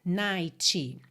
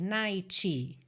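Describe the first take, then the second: No difference in how they are said.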